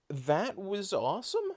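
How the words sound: The voice rises at the end, like a question.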